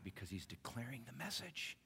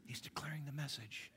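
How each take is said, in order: First: Soft. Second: A hushed repeat for emphasis; whispered. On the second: Preacher whispering the point back to the congregation. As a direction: whisper it, higher. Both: Shown as a demonstration. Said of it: "repeated as a whisper".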